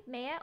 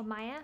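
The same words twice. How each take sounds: First: "Maya" said as MAY-uh; MAY-uh pronunciation. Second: "Maya" said as MY-uh; MY-uh pronunciation. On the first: Streamer greeting a viewer by name, "Maya" as MAY-uh. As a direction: say "Maya" with a first syllable like "may". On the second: Streamer offering another reading of a name, "Maya" as MY-uh. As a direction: say "Maya" with a first syllable like "my". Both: Shown as a demonstration. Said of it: "Hi, Maya or Maya".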